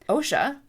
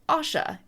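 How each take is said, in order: First: The first vowel sounds like 'oh'. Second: The first vowel sounds like 'aw'. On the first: "like the Occupational Health and Safety Administration" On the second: "like you are in awe"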